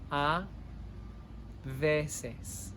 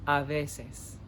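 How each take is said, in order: First: A, pause, then veces; split into two words. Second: Said in the usual way. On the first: Shown as a demonstration. Teacher to class, word by word, slowly. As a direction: say A and veces as separate words with a gap.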